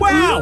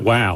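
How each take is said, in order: First: It is said brightly, with clear excitement. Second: It is said flatly, without excitement. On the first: The speaker calls it right. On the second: The speaker calls it wrong.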